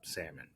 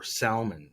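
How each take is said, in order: First: Said in an ordinary, everyday pronunciation. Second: Said in a posh, fancy-sounding pronunciation.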